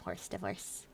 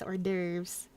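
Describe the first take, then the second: First: It is said like the English words 'horse divorce'. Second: It is said with the French pronunciation. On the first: The speaker calls it wrong. "but I would like some horse divorce" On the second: The speaker calls it right. "I know it's hors d'oeuvres because it's French"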